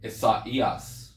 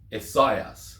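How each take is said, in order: First: The word is said with four syllables. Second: The word is said with three syllables. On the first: "But with the diaresis, it's ... So four syllables" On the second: "if the diaresis wasn't there in classical Greek, it would be pronounced"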